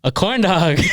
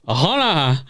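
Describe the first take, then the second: First: "corn dog" said clearly, higher and louder; clearly repeated. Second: CORN DOG blurred into a mushy "uh hona"; garbled reply. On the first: Girl up close finally getting through, "corn dog" loud and clear. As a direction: spell out CORN DOG with every consonant landing. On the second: Girl repeating over blasting music, "corn dog" garbled. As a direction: say "corn dog" with the consonants lost. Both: Retold or imitated. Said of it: "she gets close enough finally".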